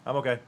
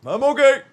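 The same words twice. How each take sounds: First: Said in the usual way. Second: Much higher, louder insistence; mock outcry. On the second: Streamer insisting they are okay, high mock outcry. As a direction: squeal it out loudly.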